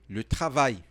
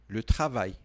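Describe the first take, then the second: The two takes are said the same way.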